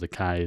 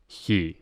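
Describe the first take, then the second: First: The word begins with a hard K sound. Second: The word begins with a breathy H sound. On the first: This is the usual English name of the letter. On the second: This is how the letter is said in Greek.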